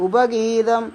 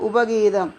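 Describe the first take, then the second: Both takes have the same delivery.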